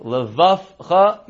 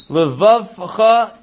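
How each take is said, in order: First: Levavcha said with an f in place of the v, levafcha; wrong f sound. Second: Levavcha said slowly with a clear v sound in the middle; careful vei. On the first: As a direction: slur Levavcha so the v turns into an f. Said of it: "make sure you don't say that". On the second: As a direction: stretch out Levavcha, voicing the v fully. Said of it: "make sure that levavcha sounds like levavcha". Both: Shown as a demonstration.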